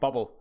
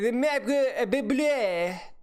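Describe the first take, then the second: First: It is said with a plain accent. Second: It is said with a French accent. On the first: The speaker calls it right. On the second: The speaker calls it wrong.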